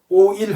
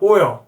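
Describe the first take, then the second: First: It is said as flat Korean syllables. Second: It ends in a nasal-sounding English L. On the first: The speaker calls it wrong. "오일 하지만" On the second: The speaker calls it right. "에어 발음이요. 조금 이게 코맹맹이 소리가 나야 돼요"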